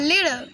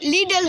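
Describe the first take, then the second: First: The middle consonant is only slightly D-like. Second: The middle consonant is a full D sound. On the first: The speaker calls it right. "অল্প করে আনলাম" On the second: The speaker calls it wrong. "পুরা ডি এর উচ্চারণ আসবে লিডল হয়ে যাবে"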